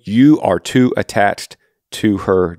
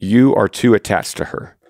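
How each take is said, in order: First: Slow, each word of "you are too attached to her" weighted; emphatic repeat. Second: Said in the usual way. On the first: Shown as a demonstration. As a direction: hammer the point home, slowly. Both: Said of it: "let me say it again".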